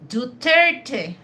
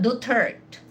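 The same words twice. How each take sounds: First: The name is said the native Filipino way. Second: The name is said with a French-style pronunciation. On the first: The speaker calls it right. "they have to say that Duterte" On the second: The speaker calls it wrong. "not Duterte"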